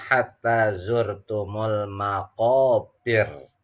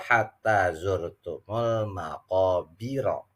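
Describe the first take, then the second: First: It stops on a light r with no vowel. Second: It ends on a heavy r plus a vowel. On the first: The reciter stops at the end of the verse. "Adapun untuk tulisannya" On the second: The reciter joins it to the next verse. "kalau dibaca wasal"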